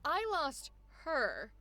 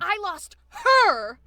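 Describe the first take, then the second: First: The voice drops away weakly on 'her'. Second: The word 'her' is punched out with force.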